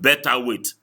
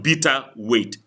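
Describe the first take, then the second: First: The first word sounds like 'better'. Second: The first word sounds like 'bitter'. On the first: The speaker calls it wrong. "not better weight" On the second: The speaker calls it right. "It's called bitter weight"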